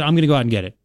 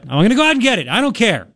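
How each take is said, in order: First: Said in the usual way. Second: Raised, insistent retold reply to his wife; insistent raised repeat.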